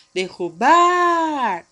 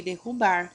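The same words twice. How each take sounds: First: "Derrubar" called out with BAR long, high and loud; as if calling the word, sustain "bar" in "Derrubar"; stressed last syllable. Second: Said in the usual way. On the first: Shown as a demonstration. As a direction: stretch and belt the "bar" of "Derrubar". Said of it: "O bar se estende". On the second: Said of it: "Vamos chamar derrubar?".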